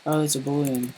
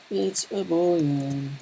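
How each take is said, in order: First: Said in the usual way. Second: Slow drawn-out repeat. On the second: Pretend. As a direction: stretch out It's a Boolean slowly, a bit higher.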